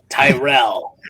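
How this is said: It is said in a changed character voice.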